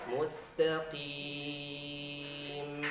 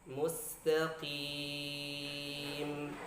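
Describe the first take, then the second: The two takes are said the same way.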